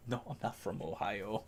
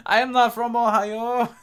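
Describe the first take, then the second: First: Hushed, offhand denial; quiet denial. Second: High, loud indignant protest; hammed-up loud denial; mock outrage. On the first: Real, not acted. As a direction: say it much softer, almost to yourself. Plain denial before mock-outraged repeat. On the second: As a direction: belt it out high, every word separate.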